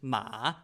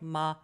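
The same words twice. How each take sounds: First: The syllable is not said on a high level tone. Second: The syllable is said on a high level tone. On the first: It means horse. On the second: It means mum.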